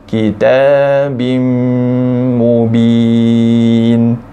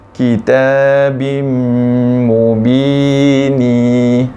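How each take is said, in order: First: The phrase ends on the bare n consonant. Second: The phrase ends with an added i vowel. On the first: The speaker calls it right. "cara bacaan betulnya" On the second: The speaker calls it wrong. "itu salah"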